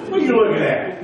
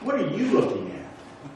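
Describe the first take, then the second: First: It is said in a hostile, confrontational tone. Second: It is said in a calm, inquiring tone. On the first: The speaker is challenging someone for staring. "it could kind of be like this guy" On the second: The speaker is sincerely asking what someone values. "Or it could just kind of be"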